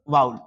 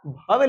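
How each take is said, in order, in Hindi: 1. यह शब्द 'w' की आवाज़ से शुरू होता है। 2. यह शब्द एक सांस वाली 'bh' आवाज़ से शुरू होता है। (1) "इसको पढ़ते हैं हम लोग वाउल" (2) "आप भवेल इसको नहीं पढ़ो"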